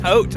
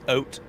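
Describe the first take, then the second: First: The word begins with an H sound. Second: The word begins with no H sound. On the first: The speaker calls it wrong. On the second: The speaker calls it right.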